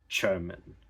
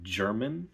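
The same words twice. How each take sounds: First: The word begins with a voiceless ch sound. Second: The word begins with a voiced j sound. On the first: "from j to ch" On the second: "instead of German"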